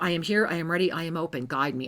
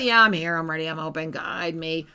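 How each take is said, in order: First: It is said sincerely and earnestly. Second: It is said sarcastically and mockingly.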